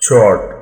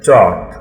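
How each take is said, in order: First: It is said with an American R sound. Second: It is said without an R sound.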